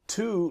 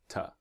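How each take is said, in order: First: The vowel is a full oo sound. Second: The vowel is a soft reduced uh sound. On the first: "like one, two, is the strong pronunciation" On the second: "The weak pronunciation is ta"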